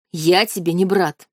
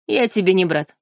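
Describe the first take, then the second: First: Spat out. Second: Madman's smirk. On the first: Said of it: "буквально выплюнул он". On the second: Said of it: "с усмешкой безумца проговорил парень". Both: Acted.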